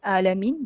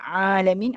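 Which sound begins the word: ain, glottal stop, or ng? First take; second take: glottal stop; ain. First: The word begins with a plain glottal stop. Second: The word begins with a pressed throaty ain. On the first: The speaker calls it wrong. "dia macam ayam A. Itu sifat alif pula ataupun hamzah, tu salah" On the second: The speaker calls it right. "ain tekan"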